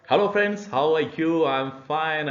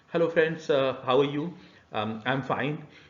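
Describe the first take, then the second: First: It is said smoothly and confidently. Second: It is said hesitantly with filler pauses.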